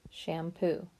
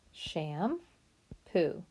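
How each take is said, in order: First: Said in the usual way. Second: Sham-poo broken into two clear parts, Sham then poo; teacher chunking Sham-poo into syllables; split into syllables. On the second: Shown as a demonstration.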